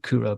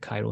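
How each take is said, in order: First: The first vowel sounds like 'oo'. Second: The first vowel sounds like 'eye'. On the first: It is said the way Finnish speakers say it. The speaker calls it right. "being Finnish, that's the way they pronounce it" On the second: It is read the way the spelling suggests. The speaker calls it wrong. "I suppose it looks like Cairo"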